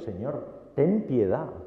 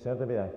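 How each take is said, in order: First: It is said as an earnest, pleading cry. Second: It is said in a flat, routine way.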